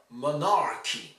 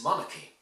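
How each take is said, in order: First: "monarchy" as mo-NAR-ky, R pronounced; wrong stress. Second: "monarchy" as MON-uh-ky, silent R; first-syllable stress. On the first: Teacher shows the mistake, "monarchy" with second-syllable stress and audible R. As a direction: stress the middle of "monarchy" and sound the R. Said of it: "it's not monarchy". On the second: Teacher corrects the mistake, "monarchy" stressed first, no R. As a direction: stress the start of "monarchy" and drop the R. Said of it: "no, it's monarchy". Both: Shown as a demonstration.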